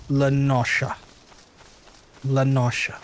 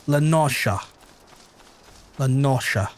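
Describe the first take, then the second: No difference in how they are said.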